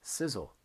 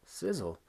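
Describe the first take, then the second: First: Sizzle said plainly and clearly with a falling tune; clear model word. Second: Sizzle said again a little higher and firmer, falling; repeated model word. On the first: Teacher models the word for students, clear and falling. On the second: Teacher repeats the word for students, a touch higher. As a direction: repeat Sizzle once more, pitched up a bit. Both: Shown as a demonstration. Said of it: "How do you say this word?".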